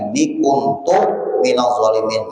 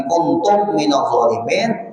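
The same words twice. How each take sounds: First: There is a pause after 'kuntu'. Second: 'Kuntu' runs straight on with an 'm' sound. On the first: The speaker confesses that he himself is a wrongdoer. The speaker calls it right. "itu kalau dibaca kuntu bakuma" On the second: It says that everyone else is a wrongdoer. The speaker calls it wrong. "tak baca mem kuntum"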